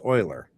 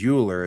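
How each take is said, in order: First: It is said with a German pronunciation. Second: It is read the English way, as spelled. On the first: The speaker calls it right. "is actually pronounced Euler" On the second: The speaker calls it wrong. "which I've always pronounced as Euler"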